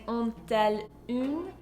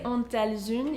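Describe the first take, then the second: First: The s of elles does not link into une. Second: The s of elles links into une. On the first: The speaker calls it right. "you're saying ont-elles une, because you do not have liaison after inversion" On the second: The speaker calls it wrong. "You don't say ont-elles une"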